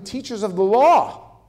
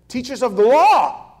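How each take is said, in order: First: The phrase is read plainly without extra force. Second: The phrase is said with strong added emphasis.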